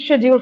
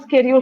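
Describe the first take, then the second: First: It is said in a British accent. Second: It is said in an American accent. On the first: "But Britishers will" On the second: "But if it's Americans ... It's flatter, it's run"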